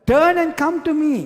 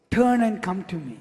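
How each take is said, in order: First: Higher and louder, calling out the divine command; commanding call of the Lord. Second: Said in the usual way. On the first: Acted. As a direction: proclaim it like God calling his people back. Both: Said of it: "The Lord says".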